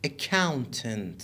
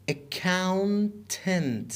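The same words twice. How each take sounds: First: Said in the usual way. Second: Accountant drawn out very slowly in pieces; syllable by syllable. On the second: Shown as a demonstration. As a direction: stretch Accountant, pausing before its last syllable. Teacher breaks word into syllables.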